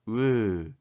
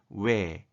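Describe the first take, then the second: First: The vowel holds one steady quality throughout. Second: The vowel glides from one quality to another. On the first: "입술이나 혀가 움직이지 않는 어, 단모음으로 발음이 되는 것이고요" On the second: "입술이나 혀의 움직임이 있는 이중 모음으로 발음하는 것을 허용"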